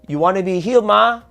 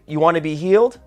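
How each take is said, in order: First: It is said in a Malaysian Manglish accent. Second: It is said in plain standard English.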